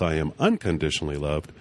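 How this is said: The stress is on the word unconditionally.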